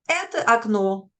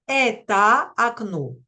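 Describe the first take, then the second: First: The first word ends in a weak, unclear vowel. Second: The first word ends in a full, open A. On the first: The speaker calls it right. "une sorte de son affaibli, de A très faible, pas bien articulé" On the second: The speaker calls it wrong. "ça ne fait pas russe du tout"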